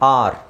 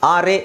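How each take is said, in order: First: The word ends on the r, no extra vowel. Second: An extra vowel is sounded after the r. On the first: The speaker calls it right. "ಈ silent ಆಗಿರುತ್ತೆ" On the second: The speaker calls it wrong. "ಆರ್ ಎ ಅಂತ ಹೇಳೋದಲ್ಲ"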